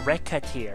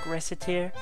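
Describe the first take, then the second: First: The middle consonant is a K sound. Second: The middle consonant is an S sound. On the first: The speaker calls it right. "So it has to be like Reca" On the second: The speaker calls it wrong. "So it can't be an S"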